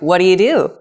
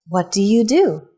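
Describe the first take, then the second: First: It is said very fast. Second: It is said slowly and carefully.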